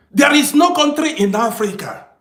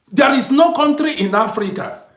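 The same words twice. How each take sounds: The two takes are said the same way.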